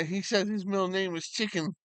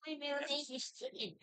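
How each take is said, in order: First: Said in the usual way. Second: High, fast, soft put-on dog voice; voicing the dog. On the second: Owner speaks for his dog named after chicken, high and quick. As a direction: squeak it quickly as the proud puppy.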